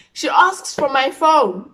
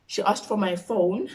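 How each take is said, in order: First: Loud, high, drawn-out wail; dramatic outcry. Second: Said in the usual way. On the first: Acted. Vlogger revealing mom wants the phone, dramatic outcry. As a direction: cry it out slowly in alarm.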